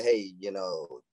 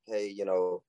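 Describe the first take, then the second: First: Low, drawn-out "hey, you know"; not comforting. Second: Low, easy "hey, you know"; confident. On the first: Man showing a wrong approach to a girl, not comforting. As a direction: say it slowly and low, without comforting her. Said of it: "you don't say it, like, very comforting". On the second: Man coaching a friend to approach girls, confident. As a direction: say it with quiet confidence, no drawn-out hesitation. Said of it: "say it with confidence. Say it like". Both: Acted.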